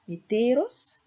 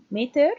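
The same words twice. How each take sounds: First: "meteros" stressed on "te"; stress on second syllable. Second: "meter" with a loud first syllable; stress on first syllable. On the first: Lecturer demonstrating the genitive form, stress on second syllable. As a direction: put the weight on "te" in "meteros". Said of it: "stress falling on the second syllable". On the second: Lecturer contrasting Greek noun forms, stress on first syllable. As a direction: punch the "me" of "meter". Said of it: "placement on the first syllable". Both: Shown as a demonstration.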